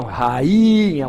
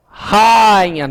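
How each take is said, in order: First: Rainha as ra-Í-nha, the I drawn out slowly; slow, corrective rainha with a long stressed I. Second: Rainha said as RÁI-nha, the A loud and the I a glide; wrong stress on A. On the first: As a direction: split rainha into separate A and I, leaning long on the I. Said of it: "é o I que é tônico". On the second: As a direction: hit the first syllable of Rainha, running A and I together. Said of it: "não, rainha". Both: Shown as a demonstration.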